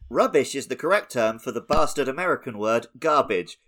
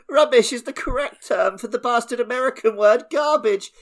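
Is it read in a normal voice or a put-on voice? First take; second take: normal; put-on. First: It is read in his normal voice. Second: It is read in a put-on voice.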